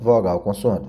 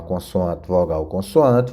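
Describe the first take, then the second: First: Said in the usual way. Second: "vogal, consoante" dito devagar, uma palavra de cada vez; devagar, separando. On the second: Shown as a demonstration. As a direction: soletre a estrutura "vogal, consoante" pausadamente. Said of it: "ele é uma consoante, vogal, consoante". (professora marcando devagar "vogal, consoante")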